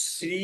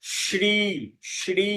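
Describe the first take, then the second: First: শ্রী with hissed s, "sri"; wrong pronunciation. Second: শ্রী with palatal "sh" and long ee, "shree"; correct pronunciation. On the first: Teacher shows what not to say, wrong pronunciation. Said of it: "শ্রী না বলে". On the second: Teacher recaps the rule, correct pronunciation. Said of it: "সেটা বলতে হয়". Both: Shown as a demonstration.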